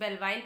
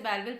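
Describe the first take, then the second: First: The last syllable has a long 'ai' vowel. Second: The last syllable has a short 'i' vowel. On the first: "कुछ बेलवाइल pronounce करते हैं" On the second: "कुछ इसे बेलविल pronounce करते हैं"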